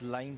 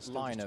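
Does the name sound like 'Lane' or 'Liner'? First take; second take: Lane; Liner. First: The name is said like 'Lane'. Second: The name is said like 'Liner'. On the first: This is how it reads to English speakers. "I think to us it reads" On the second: This is how Finnish speakers say it. "I know the Finns pronounce this uh"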